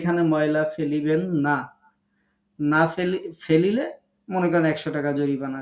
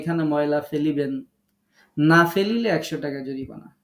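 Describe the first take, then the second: First: The pause comes after the word 'না'. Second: The pause comes before the word 'না'.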